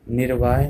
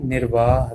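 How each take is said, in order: First: निर्वाह ending in a y-glide, nir-vaay; wrong pronunciation. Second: Said in the usual way. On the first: Shown as a demonstration. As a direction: let the final ह of निर्वाह slide into य. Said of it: "नहीं कहना". (निर्वाह को निर-वाय बोलें) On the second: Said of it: "कहना है".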